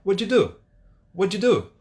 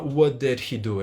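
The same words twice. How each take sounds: First: "What did you do?" run together as "wuddidu"; quick, higher, blurred into one word "wuddidu"; linked American English. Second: "What did he do?" with every word separate; careful, full "did he" in "What did he do"; unlinked textbook English. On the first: What an American will say, fast and linked. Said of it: "Ele vai falar". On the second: What an American won't say, each word pronounced fully. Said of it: "ele não vai falar". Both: Shown as a demonstration.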